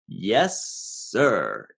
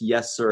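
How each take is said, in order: First: It is said reluctantly, showing disagreement. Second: It is said plainly, with no extra meaning.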